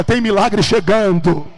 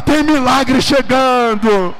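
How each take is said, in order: First: Loud, drawn-out proclamation; prophetic declaration. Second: High, drawn-out full-force yell; prophetic shout. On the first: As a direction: proclaim it for the congregation to echo. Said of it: "Põe a mão no teu irmão e diga". (proclamação profética em voz alta) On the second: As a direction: shout the prophecy with everything you have. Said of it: "Põe a mão nele e grita". (grito profético, alto e arrastado) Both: Shown as a demonstration.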